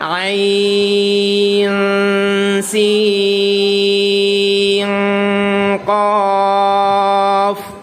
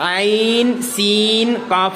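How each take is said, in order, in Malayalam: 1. n ശബ്ദങ്ങൾ മറഞ്ഞതും നാസികയിലൂടെ ഉച്ചരിക്കുന്നതുമാണ്. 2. n ശബ്ദങ്ങൾ വ്യക്തമായി ഉച്ചരിക്കുന്നു. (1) "അവിടെ മറച്ചു മണിച്ചു" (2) "എന്ന് ഓതാതെ"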